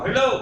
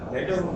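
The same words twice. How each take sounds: First: It is said loudly and projected, like onstage. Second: It is said softly and casually, like conversation. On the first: An actor is projecting to a theater audience. "ang lakas" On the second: Someone is talking normally on a phone. "as is lang. ... Yung casual lang"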